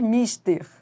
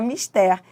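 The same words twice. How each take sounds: First: The stress is on the first syllable. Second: The stress is on the last syllable. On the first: The speaker calls it wrong. "não é correto dizer mister" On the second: The speaker calls it right. "mas é mister"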